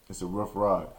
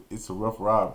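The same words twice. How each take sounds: First: A much lower, softer repeat of "It's a rough ride"; trailing off. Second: Said in the usual way. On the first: Real, not acted. Recalling the long car ride home, a low dropped-away repeat. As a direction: let the repeat sink under your breath.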